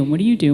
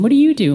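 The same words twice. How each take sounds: First: Said in the usual way. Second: Chatty mom voice. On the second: Retold or imitated. Moms quizzing each other in car.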